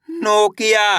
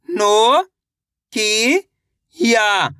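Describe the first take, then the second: First: Said in the usual way. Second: नो, की, या separately, stretched, falling on the last; syllable by syllable. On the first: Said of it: "शब्द का उच्चारण सही से हो जाएगा". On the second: Shown as a demonstration. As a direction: sound out नो, की, या slowly. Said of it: "एक अक्षर का उच्चारण सही से". (नो, की, या अलग-अलग खींचकर)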